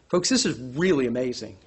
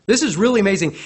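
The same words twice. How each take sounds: First: Said in the usual way. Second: Louder, stressing "This"; emphatic repeat. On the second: Shown as a demonstration. Preacher repeating it for the congregation. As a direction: hit "This" hard in awe.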